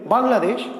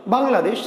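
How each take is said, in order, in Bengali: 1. শব্দটি একবারে, না থেমে বলা হয়। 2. শব্দটি একবারে, না থেমে বলা হয়।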